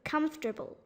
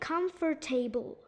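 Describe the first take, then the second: First: A syllable is dropped, giving three syllables. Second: All four syllables are pronounced separately. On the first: The speaker calls it right. "It's supposed to be" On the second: The speaker calls it wrong. "some people try to uh, say all four syllables"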